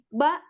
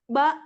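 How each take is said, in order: The two takes are said the same way.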